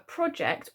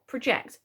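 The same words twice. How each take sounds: First: "project" stressed on the first syllable, PRO-ject, as the noun. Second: "project" stressed on the second syllable, pro-JECT, as the verb. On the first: Teacher shows pupils the noun "project", stress on PRO. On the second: Teacher shows pupils the verb "project", stress on JECT. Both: Shown as a demonstration. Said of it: "whether you're talking about the noun or the verb".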